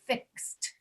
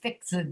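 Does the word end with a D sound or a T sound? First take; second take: T; D. First: The ending is a voiceless T sound. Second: The ending is a voiced D sound. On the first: The speaker calls it right. "we'll say fixed. We'll add a T sound after it" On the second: The speaker calls it wrong. "We will not say fixed"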